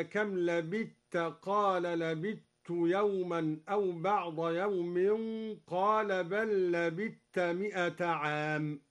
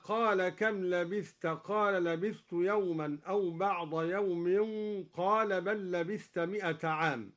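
First: لبثت said as lebitt, the ث merged into the ت; thaa merged into taa. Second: Said in the usual way. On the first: Shown as a demonstration. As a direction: assimilate the ث of لبثت into ت. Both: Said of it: "أدغم الدوري الثاء في التاء هكذا".

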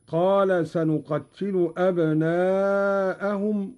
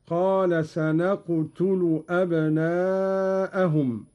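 First: Said in the usual way. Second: "سنقتل" said sanaqtulu, with no doubling; slow recitation with "سنقتل" as sa-naq-tu-lu; open nun, still qaf, u on ta. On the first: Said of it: "قرأ قالون بفتح النون". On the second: Shown as a demonstration. Teacher demonstrating Qalun's reading, "سنقتل" lightened to sanaqtulu. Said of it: "بفتح النون".

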